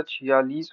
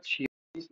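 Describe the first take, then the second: First: Said in the usual way. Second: छियालीस as the wrong example; rejected form. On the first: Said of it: "होता है". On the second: Shown as a demonstration. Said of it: "नहीं होता".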